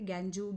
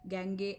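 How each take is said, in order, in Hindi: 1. इस शब्द में दो शब्दांश हैं और यह 'joo' पर खत्म होता है। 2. इस शब्द में दो शब्दांश हैं और यह 'gay' पर खत्म होता है। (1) "ऐसा कुछ भी नहीं होता" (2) "ऐसा कुछ भी नहीं होता"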